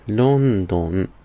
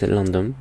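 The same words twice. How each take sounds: First: It is said with Japanese syllable-by-syllable pronunciation. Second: It is said with English pronunciation. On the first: "in Japanese we say it London. It's more like you pronounce the word one by one" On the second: "in English it is London"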